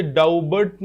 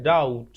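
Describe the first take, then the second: First: डाउबट with the b sounded; wrong pronunciation. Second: डाउट with silent b; right pronunciation. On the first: Teacher showing students the wrong way to say doubt, b pronounced. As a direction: say डाउबट, b spoken aloud. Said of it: "इसे डाउबट नहीं पढ़ेंगे". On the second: Teacher correcting students' doubt, silent b, said low. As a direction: say डाउट, no b at all. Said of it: "बी silent है". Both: Shown as a demonstration.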